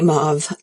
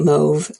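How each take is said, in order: First: The vowel matches the vowel of 'suave'. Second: The vowel differs from the vowel of 'suave'. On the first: This is how the shade name is meant. "I don't say mauve" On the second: This is the speaker's usual way. "I say mauve"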